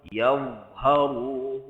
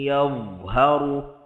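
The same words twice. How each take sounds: No difference in how they are said.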